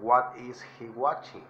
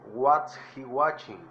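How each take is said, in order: First: "What is" is said as two full words. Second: "What is" is contracted to "what's". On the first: "O what is he watching?" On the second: "Recuerden que what es la contracción de what is"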